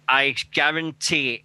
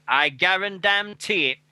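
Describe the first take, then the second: First: Said in the usual way. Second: "I guarantee it" said slower and higher, leaning on "guarantee"; slow, higher, insistent "guarantee"; emphatic promise. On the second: Real, not acted. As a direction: drag out "guarantee" as a firm pledge. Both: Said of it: "repeats promise with more force".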